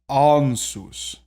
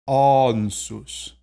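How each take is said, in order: The two takes are said the same way.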